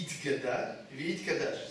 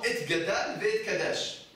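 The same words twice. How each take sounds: First: "It Gadal, Veit Kadash" read with the correct Hebrew vowels; proper Kaddish Hebrew, quietly. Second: "Et Gadal, Veit Kadash" read phonetically as a French reader would, with the wrong vowels; mock phonetic Kaddish reading; mispronounced Kaddish. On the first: Shown as a demonstration. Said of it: "Vous savez comment on dit le Kaddish?". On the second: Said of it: "Et lui, il dit comment?".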